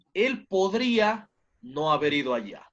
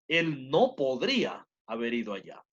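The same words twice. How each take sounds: First: "no" comes after "podría" and carries the stress: "podría NO haber ido". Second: "no" comes before "podría" and is hit hard: "él NO podría"; stress on no before podría. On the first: Teacher contrasting two sentences, stressing "no" after "podría". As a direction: put the weight on "no" after "podría". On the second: Teacher contrasting two sentences, stressing "no" before "podría". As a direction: put the weight on "no" before "podría". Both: Shown as a demonstration. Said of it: "Notemos algo".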